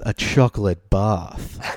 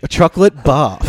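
First: It is said in a sultry, sexy voice. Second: It is said like a game-show announcer.

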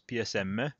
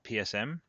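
First: The letters are spoken with Italian letter names. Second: The letters are spoken with English letter names.

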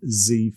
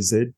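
First: The letter is said the North American way. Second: The letter is said the Australian way.

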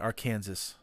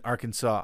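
First: The word ends with a 'sass' sound. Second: The word ends with a 'saw' sound.

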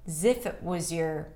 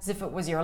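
First: The word 'if' is full and higher in pitch. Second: The word 'if' is reduced and lower in pitch. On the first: "you can also raise the pitch and use the E as in sit" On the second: "I totally reduced it to a schwa and I went a little lower in pitch"

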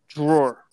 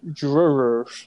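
First: It is said plainly, without that local accent. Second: It is said in a strange Long Island accent. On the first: This is how it was said growing up. "when I grew up, I thought it was just drawer" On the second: This is how locals there say it. "they would say it in a strange way"

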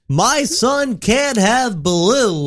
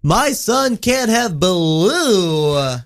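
First: The pitch on blue moves only a little. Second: The pitch goes up and down on blue.

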